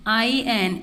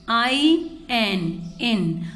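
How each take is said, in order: First: Said in the usual way. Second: IN drawn out slowly, each letter stretched; slow spelled-out blend. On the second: Shown as a demonstration. Teacher slowly spells out IN for the children.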